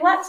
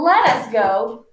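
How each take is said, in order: First: Let and us are contracted into one syllable. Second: The words let and us are said separately. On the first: The speaker calls it right. "we usually say let's go" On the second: The speaker calls it wrong. "instead of let us go"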